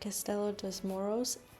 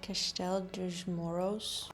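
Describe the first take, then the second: First: The name is said with English-style sounds. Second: The name is said with Portuguese-style sounds. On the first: The speaker calls it wrong. "I already know I'm saying this wrong" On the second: The speaker calls it right. "It should be more like"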